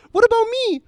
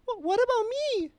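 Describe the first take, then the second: First: High and loud, whiny mocking complaint; shrill falsetto protest, hammed up; mock whiny woman. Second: High, whiny imitation of a complaining woman; mock whiny woman. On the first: Retelling the woman's outburst to his friend, loud high whine. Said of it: "she does this". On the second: Mocking the pink-haired woman in line, high whiny complaint. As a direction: squeak out a petty protest in mocking falsetto. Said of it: "is like this".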